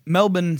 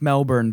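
First: "Melbourne" as Australians say it, MEL-bun, no R; Australian accent, "Melbourne" ending in a short "bun". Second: Said in the usual way. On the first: Shown as a demonstration. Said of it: "the accent". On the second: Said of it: "sounds like Melbourne, but with".

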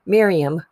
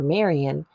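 First: "Miriam" said as MEER-ee-am, louder correction; corrected name. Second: "Marian" said as MAIR-ee-an, the slip; starts to say "Marian", mistaken name; wrong name. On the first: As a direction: fix it firmly to "Miriam". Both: Real, not acted. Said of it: "not Marian".

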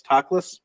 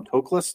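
First: "Toklas?" as TAH-kləs, open ah, questioning rise; unsure pronunciation. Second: "Toklas?" as TOH-kləs, long o, questioning rise; unsure pronunciation. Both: Shown as a demonstration. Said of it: "this is one I don't know".

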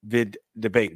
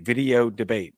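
First: Said in the usual way. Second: "Video Debate" said out in full, each word clear; spelled-out name. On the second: Shown as a demonstration.

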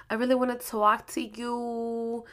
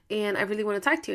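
First: A little sad. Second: Said in the usual way. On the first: Retold or imitated. Boyfriend asking his girlfriend to stop and talk, a little sad. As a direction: mimic a boyfriend's soft, downcast tone. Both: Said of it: "you sound like that".

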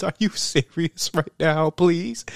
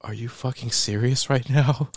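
First: High, drawn-out tearful plea; mock crying. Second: Said in the usual way. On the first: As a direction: plead slowly as if crying, hammed-up. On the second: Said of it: "and she's like".

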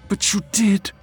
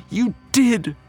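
First: "did" pitched high, as an accusation; accusing stress on DID. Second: "did" hit hard, very high, then falling; escalated stress on DID. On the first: Wife tells husband he broke it, "did" high and hurt. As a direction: land high on "did", hurt but not yet shouting. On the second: Wife insists he betrayed her, "did" high and forceful. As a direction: throw "did" at him, pitched way up. Accusation repeated more forcefully. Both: Acted.

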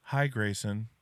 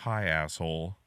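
First: Sweet, chirpy greeting; friendly toddler voice. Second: Low, flat rude greeting; deadpan toddler. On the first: Dad imitating his son greeting himself, friendly. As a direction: say hi brightly like a toddler. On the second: Dad imitating his son's second self, lower and rude. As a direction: drop the voice for the rude twin. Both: Retold or imitated. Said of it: "he just goes".

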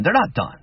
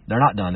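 First: They're NOT done, with NOT pitched high and hit hard; emphatic denial. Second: Said in the usual way. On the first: Real, not acted. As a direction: slam the word not. Emphatic rebuttal to doom talk.

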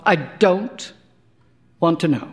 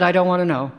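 First: Broken up with a pause after DON'T; deliberate, spaced-out refusal; measured repeat. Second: Quick, run-together refusal; said fast to shut him up; really fast. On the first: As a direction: halt after DON'T, then finish WANT TO KNOW. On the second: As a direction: rush it out in one go. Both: A narrator's reading. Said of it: "I said it really fast".

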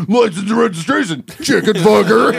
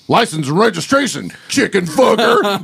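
First: High mock cop line through laughter; ringtone quote, laughing. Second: Higher, slow mock cop line; ringtone quote. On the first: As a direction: repeat the cop line while cracking up. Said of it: "what are they hearing". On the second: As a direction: deliver it like the cop in the movie. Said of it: "and you hear".

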